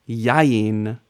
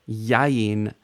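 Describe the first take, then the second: Both takes have the same delivery.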